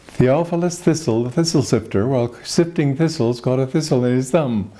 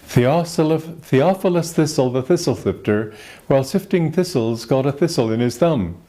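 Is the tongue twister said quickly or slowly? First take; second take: quickly; slowly. First: It is said at a fast, rushed pace. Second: It is said at a slow, careful pace.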